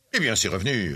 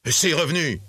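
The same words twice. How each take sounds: First: Said in the usual way. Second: High, indignant outburst; indignant exclamation. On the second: A narrator's reading. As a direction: throw it back in disbelief, pitched up. Indignant nephew demands his accounts. (exclamation indignée, voix plus aiguë)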